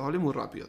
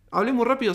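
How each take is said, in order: First: "hablé muy rápido" quietly owned up to, softer; sincere admission. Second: Quoting the criticism. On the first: Real, not acted. Honestly conceding to viewers, softer. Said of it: "vamos a ser sinceros". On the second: Retold or imitated. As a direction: throw out "Hablé muy rápido" like the commenter said it. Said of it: "saquemos algo bueno".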